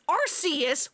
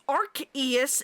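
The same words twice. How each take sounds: First: The name begins with a soft "arse" sound. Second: The name begins with a hard "ark" sound. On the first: "with the Arse phone" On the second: "and the Arc phone"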